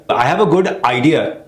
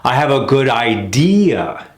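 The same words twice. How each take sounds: First: "I have a good idea" with a bump on "a"; choppy wrong rhythm. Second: "I have a good idea" slow, landing on "idea"; slow, let it fall on "idea"; American sentence rhythm. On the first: Teacher showing a sentence with wrong stress. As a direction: hit "a", clipped idea. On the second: Teacher modelling the natural rhythm of "I have a good idea". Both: Shown as a demonstration.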